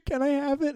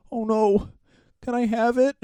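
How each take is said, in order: First: Much higher, softer "Can I have it?"; hammed-up falsetto plea; squeaky mock innocence. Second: Higher, sing-song fake innocence; lightly hammed-up silly voice; mock innocent prankster. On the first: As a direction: squeak it through a laugh. Repeats the prankster's line laughing. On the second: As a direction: play dumb about the poo.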